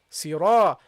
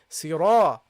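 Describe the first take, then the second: Both takes have the same delivery.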